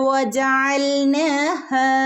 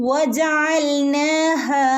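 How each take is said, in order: The two takes are said the same way.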